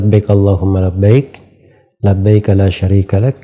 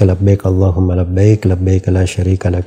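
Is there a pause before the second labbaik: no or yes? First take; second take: yes; no. First: It pauses so each segment begins with labbaik. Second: It runs on without pausing before each labbaik. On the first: The speaker calls it right. "potongannya dimulai dari labbaik" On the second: The speaker calls it wrong. "yang populer itu di orang-orang"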